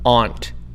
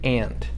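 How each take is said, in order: First: Aunt is said in a Maritime Canadian way. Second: Aunt is said in a New York way. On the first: "the maritime way of aunt" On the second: "In New York, we say aunt"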